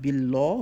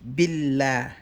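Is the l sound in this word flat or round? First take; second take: round; flat. First: The l sound is heavy and round. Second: The l sound is light and flat. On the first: The speaker calls it wrong. "not billah" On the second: The speaker calls it right. "we're gonna say billah"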